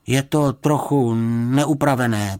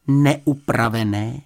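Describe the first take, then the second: First: Meek, halting confession; sheepish admission. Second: Slow, rising disbelief on “Neupravené?”; stretched, questioning echo; incredulous echo. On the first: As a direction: admit it reluctantly, stretching “neupravené” and letting it fall. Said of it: "přiznal". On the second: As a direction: repeat “Neupravené?” as an indignant question, drawn out. Girl echoes his understatement in disbelief. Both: A narrator's reading.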